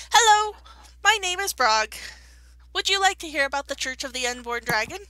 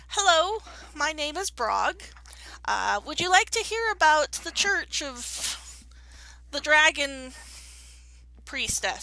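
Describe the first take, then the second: First: Higher, louder missionary greeting; eager kobold missionary. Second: Slow, cheery door-to-door preacher pitch; kobold missionary. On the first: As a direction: open with a big eager hello. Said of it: "and he's like". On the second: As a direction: greet strangers like an eager missionary. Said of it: "you overhear him going up to somebody and going". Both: Acted.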